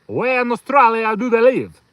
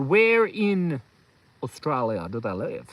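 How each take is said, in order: First: Higher, louder, hammed-up Canadian accent; exaggerated stab at Canadian, pitched up; Canadian accent attempt. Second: Tentative Canadian accent, low and slow; slow, doubtful stab at Canadian; attempted Canadian accent. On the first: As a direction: push the mock Canadian accent harder. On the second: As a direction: try out a Canadian accent, unsure of it. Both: Shown as a demonstration. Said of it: "Is that a Canadian accent?".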